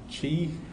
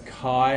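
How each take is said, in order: First: The word begins with a 'ch' sound. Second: The word does not begin with a 'ch' sound. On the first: The speaker calls it wrong. "not chi ... there isn't a ch sound in Greek" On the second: The speaker calls it right. "that's chi"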